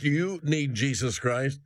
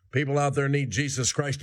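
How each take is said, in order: First: You pressed home, slower; slow down and hit You; stress on You. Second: Said in the usual way. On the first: Real, not acted. Preacher pointing at the listener, stressing You.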